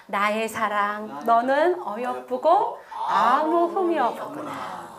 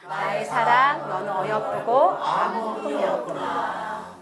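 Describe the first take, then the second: First: The Lord tenderly calling his bride. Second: Slow reading aloud. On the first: Acted. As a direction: read it slowly like a loving groom. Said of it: "주님이 보실 때 뭘로 보시는". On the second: Shown as a demonstration. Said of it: "다시 시작".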